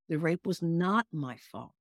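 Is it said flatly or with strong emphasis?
strong emphasis. It is said with strong emphasis on words.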